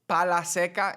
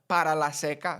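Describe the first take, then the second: First: The first word is shortened to one syllable. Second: The first word is said in full, two syllables. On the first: "Para turns to pa" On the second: "instead of"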